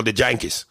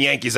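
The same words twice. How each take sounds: First: "Yankees" with a Cuban J sound at the start; Cuban accent. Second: Said in the usual way. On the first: Shown as a demonstration. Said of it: "So it's like if I said". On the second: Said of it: "instead of saying Yankees".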